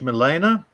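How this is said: The name is said with a French pronunciation. "like the French"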